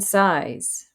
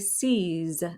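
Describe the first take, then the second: First: It sounds like the English word 'size'. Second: It sounds like the English word 'seize'. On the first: "or even size" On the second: "they want to say seize, as in seize the day"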